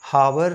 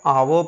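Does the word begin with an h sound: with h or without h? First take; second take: with h; without h. First: The word starts with a clear h sound. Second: The word starts with a vowel, no h sound. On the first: The speaker calls it wrong. "इसको हावर नहीं" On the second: The speaker calls it right. "तो इसको आप आवर पढ़ेंगे"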